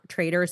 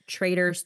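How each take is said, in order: First: The middle consonant is a soft d, like trader. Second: The middle consonant is a crisp, clear t. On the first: The speaker calls it wrong. "not Traitors like Trader Joe's" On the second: The speaker calls it right.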